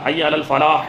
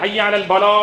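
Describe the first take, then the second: First: The last word begins with an f sound. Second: The last word begins with a p sound. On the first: It calls people toward success. The speaker calls it right. "வெற்றியின் பக்கம் வாருங்கள்னு அர்த்தம்" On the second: It calls people toward calamity. The speaker calls it wrong. "அவங்களுக்கு ஃபா வராது, பா தான் வரும்"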